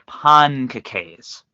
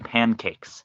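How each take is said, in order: First: The word is said with a French-sounding pronunciation. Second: The word is said with a plain English pronunciation. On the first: The speaker calls it right. "That's how the French pronounce it" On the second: The speaker calls it wrong. "I did not say pancakes"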